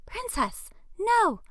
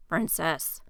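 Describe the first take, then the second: First: High, very loud shout; yell. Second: Yell. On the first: Owner shouting at runaway dog, high and very loud. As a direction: shriek the dog's name to stop it. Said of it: "Another voice yells". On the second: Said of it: "Jaden yells". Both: Acted.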